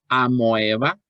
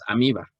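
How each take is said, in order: First: The vowel after the m is an oe sound. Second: The vowel after the m is an i sound. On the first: "que digas amoeba" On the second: "o que digas amiba"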